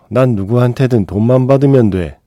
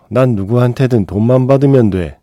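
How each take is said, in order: First: The voice is pitched relatively high. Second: The same.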